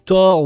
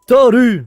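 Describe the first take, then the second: First: The name is said as one French syllable. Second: The name is said as two Japanese-style syllables. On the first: "ou Thor" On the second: "la prononciation à la japonaise. Donc, je fais un effort pour vous"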